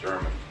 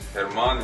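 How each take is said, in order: First: The name is said with an English pronunciation. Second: The name is said with a Spanish pronunciation. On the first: "in English it's actually pronounced as German" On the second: "It's actually Herman in Spanish"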